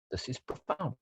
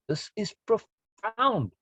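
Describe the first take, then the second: First: Quiet first take. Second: "This is profound" drawn out slowly, leaning hard on "profound"; slow emphatic repeat. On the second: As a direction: stretch "profound" out and let it land. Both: Shown as a demonstration.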